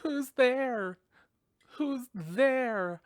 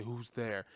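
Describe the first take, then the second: First: High, loud frightened call into the dark; scared girl calling out. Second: Mocking her. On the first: Retold or imitated. Girl alone at home calls out to the noise, frightened. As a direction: call out nervously to an unseen intruder. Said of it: "and then she goes". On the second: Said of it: "And then he was like".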